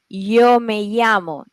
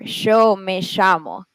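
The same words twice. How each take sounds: First: It is said in a Mexican Spanish accent. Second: It is said faster, in an Argentine accent. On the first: "you say yo me llamo in Mexico" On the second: "in Argentina, it's not that. So it's faster"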